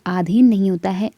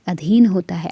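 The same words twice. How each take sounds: First: आधीन said with a long first आ, the wrong form. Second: अधीन said with a short first अ, the correct form. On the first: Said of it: "आ की मात्रा नहीं होनी चाहिए थी". (आधीन लंबे आ के साथ) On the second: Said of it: "अ होना चाहिए था". (अधीन छोटे अ के साथ) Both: Shown as a demonstration.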